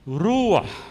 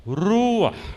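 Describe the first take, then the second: The two takes are said the same way.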